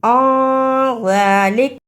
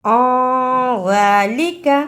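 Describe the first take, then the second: First: ज़ालिक stopped on a bare k; pausal form. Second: ज़ालिका ending on an open short "ka"; continuing form. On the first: Teacher showing how to stop, ज़ालिक ending on k. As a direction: drop the final vowel, cut at the k of ज़ालिक. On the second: Teacher showing the unpaused form, ज़ालिका with final a. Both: Shown as a demonstration. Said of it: "रुकने की सूरत में".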